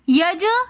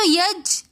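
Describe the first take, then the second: First: The final consonant ends with an echoing bounce. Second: The final consonant stops flat with no bounce. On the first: "यज हमने कलकला किया, अपनी आवाज को पलटाकर हम दोबारा वापस लेकर आए हैं" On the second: "कलकला के बगैर पढ़ेंगे तो यज मतलब हमने कलकला नहीं किया"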